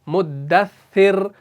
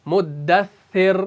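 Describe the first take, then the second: Both takes have the same delivery.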